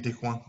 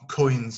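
First: Des coins said the French way, as kwan; mock the French reading of coins. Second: Coins. said the English way, as koyns. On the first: Teacher shows students the wrong French reading of coins. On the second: Teacher gives students the right English coins. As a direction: give Coins. its English vowel. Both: Shown as a demonstration. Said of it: "comme si on dit des coins".

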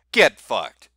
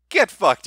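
First: Said in the usual way. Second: "Get fucked" punched higher and louder, a sharper shout; loud repeat. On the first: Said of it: "Get fucked, Europeans". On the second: Real, not acted. Telling Europeans off for their law, louder punchy repeat. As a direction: hit "Get fucked" harder the second time.

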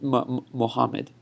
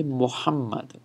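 First: Anglicised "Muhammad" without the held double m; halting start, then a loose English-style Muhammad; wrong pronunciation. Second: "Muhammad" with a held double m in the Arabic way; correct Arabic pronunciation. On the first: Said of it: "Not, not". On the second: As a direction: lean on the "hamm" of Muhammad. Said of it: "you wanna say Muhammad". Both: Shown as a demonstration.

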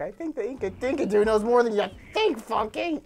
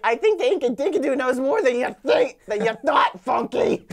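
First: Lighter, laughing-after retelling of a cartoon line; cartoon quote. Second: Loud, emphatic cartoon retort; cartoon quote. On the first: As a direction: repeat the cartoon line without shouting. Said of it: "He's like". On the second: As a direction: build to a shouted punch on the last words. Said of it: "and he's like".

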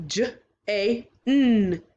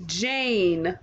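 First: "J A N" broken into separate sounds, slowly; segmented sounds. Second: "Jane" said smoothly as one word; blended word. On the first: Teacher segmenting the word, slowly. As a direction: sound out each part of "J A N". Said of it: "three sounds". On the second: Teacher blending the word for the class. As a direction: blend the sounds back into "Jane". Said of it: "Good job blending". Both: Shown as a demonstration.

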